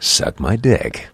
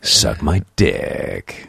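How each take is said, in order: First: Slow, drawn-out announcer read; deliberate, performed voiceover delivery. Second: Very slow, low announcer rumble; low movie-trailer voiceover, last word stretched; rumbling voiceover voice. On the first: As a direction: stretch it out like a movie voiceover. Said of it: "in voiceover voice". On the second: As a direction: drag it out deep, rumbling on DICK. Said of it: "a little more rumble on the dick". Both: Shown as a demonstration.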